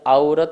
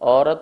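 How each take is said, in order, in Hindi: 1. पहला स्वर संयुक्त स्वर 'au' है। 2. पहला स्वर सादा 'o' है। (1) "नहीं बोलते हैं" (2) "बोलते हैं"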